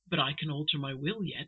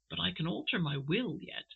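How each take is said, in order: First: It is spoken loudly, with some aggression. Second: It is spoken in a low, quiet tone. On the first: The threat is open and aggressive. The speaker calls it wrong. "I've actually made his that speaking louder than he said" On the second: The aggression is held back for now. The speaker calls it right. "he speaks in a very low, quiet tone"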